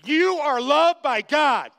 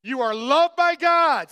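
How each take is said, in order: First: Firm and emphatic, eye to eye; say it to your neighbor. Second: Louder, with emphasis on each word; a little emphasis. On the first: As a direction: tell your neighbor with conviction. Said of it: "look 'em in the eye ... and say". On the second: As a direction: say it with more weight this time. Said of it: "A little emphasis". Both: Shown as a demonstration.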